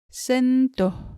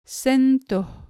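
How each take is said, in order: First: The second vowel sounds like 'o'. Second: The same.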